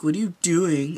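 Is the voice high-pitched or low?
low. It is said in a lower, ordinary voice.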